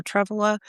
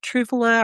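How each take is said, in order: First: Truffula with a short first vowel; Truffula, first syllable as in "truffle"; alternative pronunciation. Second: Trufula with a long "oo" in the first syllable; Trufula, first vowel as in "true"; alternative pronunciation. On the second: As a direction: say Trufula as TROO-fuh-la. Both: Shown as a demonstration. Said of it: "Trufula or Truffula".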